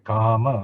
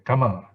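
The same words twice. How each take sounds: First: The first vowel is long. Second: The first vowel is short. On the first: The speaker calls it right. "you say kama long" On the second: The speaker calls it wrong. "you don't say kama"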